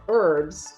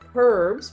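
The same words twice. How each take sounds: First: The word begins without any h sound. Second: The word begins with a clear h sound. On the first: "with a silent H" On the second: "with an H"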